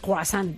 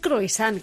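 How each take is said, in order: First: It is said with a French accent. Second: Every letter is sounded the Spanish way. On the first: "ponemos el acento francés y decimos croissant" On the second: "deberíamos decir croissant, que es como se escribe"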